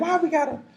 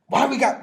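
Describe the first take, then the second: First: It is asked with polite curiosity. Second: It is asked with a rude, challenging tone.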